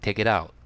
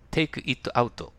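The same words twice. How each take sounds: First: The words run together into one linked unit. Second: Each word is said separately and carefully. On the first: The speaker calls it right. "どう言ってるか" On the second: The speaker calls it wrong. "とは誰も言わないです"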